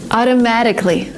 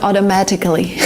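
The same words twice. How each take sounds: First: "automatically" said "audomadically". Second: "automatically" with over-crisp t sounds; careful T. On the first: Teacher showing learners natural speech, "audomadically". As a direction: soften both t sounds in "automatically" to d. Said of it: "This would come automatically". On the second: Teacher showing what not to say, crisp-t "automatically". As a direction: hit each t in "automatically". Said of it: "not automatically". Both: Shown as a demonstration.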